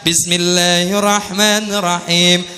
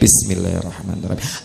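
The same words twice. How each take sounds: First: It is said loudly and clearly. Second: It is said softly and quietly.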